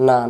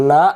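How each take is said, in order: First: Said in the usual way. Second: না punched and cut short; hard hamza stop. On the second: Shown as a demonstration. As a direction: hit না and stop abruptly. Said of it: "আওয়াজ শক্ত". (না শক্ত করে থামা)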